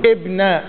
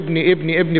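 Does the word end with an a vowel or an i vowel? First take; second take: a vowel; i vowel. First: The word ends with an a vowel. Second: The word ends with an i vowel. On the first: It describes the object of the verb, not the preceding name. "مع اثبات الالف فيها ونصبها" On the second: It describes the preceding name in the genitive. "بالكسر"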